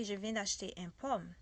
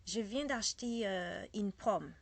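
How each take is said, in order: First: Wrong French. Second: Said in the usual way. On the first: Shown as a demonstration. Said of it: "That's a very bad French". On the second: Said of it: "I cannot say".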